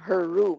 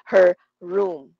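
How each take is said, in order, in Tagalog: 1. Magkadugtong nang maayos ang dalawang salita. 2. Magkahiwalay na binibigkas ang dalawang salita. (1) "Magkadugtong yon" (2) "Hindi siya her room. Awkward pa nga yun eh"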